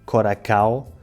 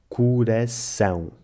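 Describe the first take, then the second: First: Read letter by letter, ending in an oral ao. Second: First vowel like u, ending in nasal ão. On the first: The speaker calls it wrong. "Quem não souber nada sobre fonética portuguesa irá pensar que se lê coracao" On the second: The speaker calls it right. "o ditongo nasal ão, que se lê ão e não ao"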